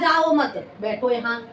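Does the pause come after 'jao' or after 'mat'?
after mat. The pause comes after the word 'mat'. Don't go, sit here. "उसने कहा ... प्रस्तुत उदाहरण में जाने के लिए मना किया जा रहा है"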